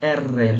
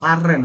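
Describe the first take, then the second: First: The name starts with an 'eh' vowel. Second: The name starts with an open 'ah' vowel. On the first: The speaker calls it right. "এররে এররে এররে বলেন" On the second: The speaker calls it wrong. "আররে না, অনেকে বলে আররে"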